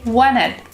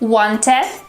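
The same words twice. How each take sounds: First: The T after N is dropped. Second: The T after N is clearly pronounced. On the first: The speaker calls it right. "the T disappears" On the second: The speaker calls it wrong. "instead of saying"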